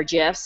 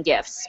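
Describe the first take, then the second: First: GIFS with a soft g; soft-g pronunciation. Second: GIFS with a hard g; hard-g pronunciation. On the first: Tutor offering the other option, soft-g gifs. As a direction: say "gifs" like "jifs", as in giraffe. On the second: Tutor naming the gif tutorial, hard-g gifs. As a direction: say "gifs" with g as in gift. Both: Shown as a demonstration. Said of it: "however you wanna pronounce it".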